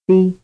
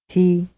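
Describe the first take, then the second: First: The t is unaspirated, with no puff of air. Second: The t is aspirated, with a puff of air. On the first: "the Italian syllable di" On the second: "the English word t"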